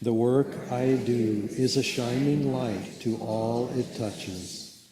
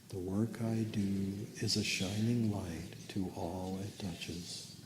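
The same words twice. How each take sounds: First: It is said at normal loudness. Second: It is said more softly.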